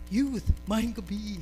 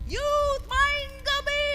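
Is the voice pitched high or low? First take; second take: low; high. First: The voice is pitched low. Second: The voice is pitched higher. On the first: It sounds authoritative but lacks energy. The speaker calls it wrong. "but you cannot use this with, during social night" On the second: It sounds energetic. The speaker calls it right. "tas-tasan mo na nimo gamay"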